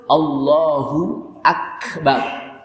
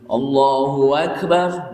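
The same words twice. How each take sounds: First: The two words join with no sound between. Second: An extra 'wa' sound separates the two words. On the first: Allah is the Greatest. The speaker calls it right. "Padahal yang betul" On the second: Allah and the Great One. The speaker calls it wrong. "tidak boleh diselingi di tengahnya dengan kalimat apa? Wow"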